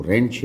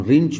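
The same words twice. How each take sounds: First: रेंच said with an E, not I; correct pronunciation. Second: रिंच said with a short I; common mispronunciation. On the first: Teacher giving the tool's real name, E vowel. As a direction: put an open E in रेंच, as "rench". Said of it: "वास्तव में वो रेंच है". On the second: Teacher quoting what we usually call the tool, I vowel. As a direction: put an I vowel in रिंच, as "rinch". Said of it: "जिसको हम रिंच बोला करते हैं". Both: Shown as a demonstration.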